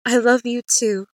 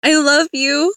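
First: Mild raised-voice reply, falling at the end; calling back. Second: Loud, high, heartfelt call; raised voice lifting at the end. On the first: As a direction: answer warmly across a distance. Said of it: "He called out". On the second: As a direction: call across the water to someone leaving. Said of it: "I called up". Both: A narrator's reading.

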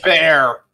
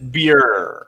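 First: "bear" with an open eh, rhyming with air; pronounced bear. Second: "beer" low, with a long ee vowel; German beer. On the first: Showing the co-hosts how it is pronounced, "bear" with an eh sound. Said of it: "It's pronounced bear". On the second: Offering the supposed German pronunciation, "beer" with an ee sound. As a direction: say "beer" lower, rhyming with ear. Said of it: "It's pronounced actually in the German". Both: Shown as a demonstration.

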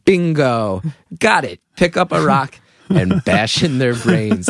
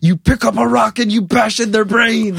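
First: Measured echo, slowing on the instruction; kid taking note. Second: High, exasperated mock-dad outburst; flipped-out dad. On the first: Retold or imitated. Kid eavesdropping from the stairs, matter-of-fact resolve. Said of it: "And I was like". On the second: Dad ordering his son to fight back, flipping out. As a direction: blow up like a fed-up father. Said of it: "my dad flipped out and went".

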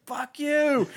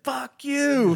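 First: High, loud furious yell; mock outburst at the soldier who apologized; angry yell. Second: High, loud furious yell; mock outburst at the man who shot him; angry yell. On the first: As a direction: snap it back in a rage. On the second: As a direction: spit it at him in a rage. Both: Angry wounded soldier quote.

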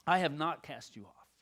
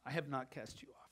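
First: Said in the usual way. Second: Softly. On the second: Acted. Pastor repeating God's promise to a friend, softly. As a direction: let the repeat fall to a hush.

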